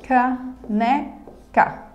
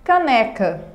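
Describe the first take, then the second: First: "Caneca" in three slow beats: ca, ne, ca; syllable by syllable. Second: Said in the usual way. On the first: Shown as a demonstration. Teacher dividing a word for students, syllable by syllable. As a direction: pause after each syllable of "Caneca". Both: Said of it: "Na divisão silábica e na pronúncia".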